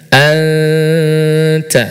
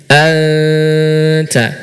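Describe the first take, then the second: No difference in how they are said.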